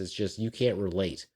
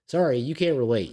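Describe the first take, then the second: First: Said in the usual way. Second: Sharp, louder, higher retort; emphatic retort. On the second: Real, not acted. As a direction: throw the "Sorry" right back at them. Repeats louder with sorry.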